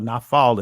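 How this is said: It is said in a modern Israeli pronunciation. "in the Israeli"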